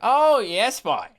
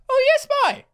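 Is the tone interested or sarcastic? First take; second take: sarcastic; interested. First: It sounds sarcastic and disbelieving. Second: It sounds genuinely interested and impressed.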